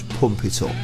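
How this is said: It is said in a nice, gentle way. The speaker calls it wrong. "don't sound right if you say it quite that nicely"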